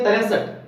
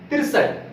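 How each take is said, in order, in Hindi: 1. यह ढीले ढंग से, रोज़मर्रा के छोटे रूप में बोला गया है। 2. यह सावधानी से बोला गया है, हर ध्वनि पूरी तरह बोली गई है। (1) "हम अपने सुविधा अनुसार इसको बोलते हैं" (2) "सही रूप में इसका रूप है"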